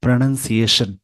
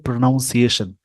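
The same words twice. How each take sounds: First: प्रोनाउंसिएशन as "pruh-nun-see-AY-shun"; short "nun", no "noun", in प्रोनाउंसिएशन; correct pronunciation. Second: प्रोनाउंसिएशन with "NOUN", pro-noun-siation; common mispronunciation. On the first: Teacher correcting the common mistake, correct pronunciation. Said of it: "पर actual में होता है". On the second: Teacher showing what many people wrongly say, common mispronunciation. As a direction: say प्रोनाउंसिएशन as "pro-NOWN-see-ay-shun". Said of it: "बहुत सारे इस word को बोलते हैं". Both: Shown as a demonstration.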